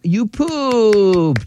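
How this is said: It is said in a happy tone.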